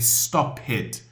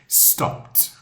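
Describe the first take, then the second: First: The ending is an extra 'id' syllable. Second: The ending is a plain 't' sound. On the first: The speaker calls it wrong. "I've heard many people say stop it" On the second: The speaker calls it right. "it still is sounds like S T O P T"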